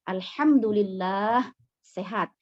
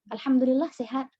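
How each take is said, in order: First: The lam sound in Allah is held long. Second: The lam sound in Allah is cut short. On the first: The speaker calls it right. "Harusnya gimana?" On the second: The speaker calls it wrong. "jangan jawab gini"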